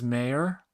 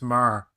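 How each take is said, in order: First: The name sounds like 'Mayor', two syllables. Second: The name sounds like 'Mar', one syllable. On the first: The speaker calls it wrong. "everybody says Mayor" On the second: The speaker calls it right. "it's Mar"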